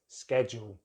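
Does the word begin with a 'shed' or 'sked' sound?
sked. The word begins with a 'sked' sound. "in American English, they have the sked"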